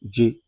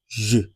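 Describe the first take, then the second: First: It begins with a hard 'dj' sound. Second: It begins with a soft 'zh' sound. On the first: The speaker calls it wrong. "you don't say J like jo- like in Jollof" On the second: The speaker calls it right. "You say J. That is the correct pronunciation"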